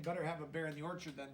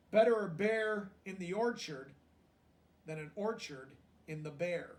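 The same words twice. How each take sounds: First: Fast, softer explaining aside; quick quiet paraphrase. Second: Storybook read with weight on Better; grandfather's line read out. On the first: Shown as a demonstration. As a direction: rattle it off to explain the joke. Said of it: "So he's saying". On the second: A narrator's reading. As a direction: give the old man's saying a proud landing.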